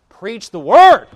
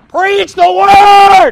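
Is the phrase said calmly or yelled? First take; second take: calmly; yelled. First: The phrase is said at a calm volume. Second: The phrase is yelled loudly and forcefully.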